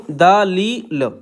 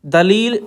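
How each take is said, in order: First: दलील stretched out very slowly; very slow dictation of दलील. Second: Said in the usual way. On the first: Shown as a demonstration. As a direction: draw out दलील as the pen writes. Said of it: "इस तरीके से।". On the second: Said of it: "स्वीकार नहीं किया।".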